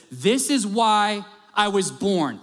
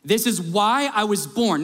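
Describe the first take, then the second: First: "This is why I was born" drawn out slowly, each word leaned on; slow it right down and let "This is why I was born" land; slow, weighty emphasis. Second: Said in the usual way. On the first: Shown as a demonstration. Preacher to church, savouring Jesus' words slowly. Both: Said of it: "let me just say this".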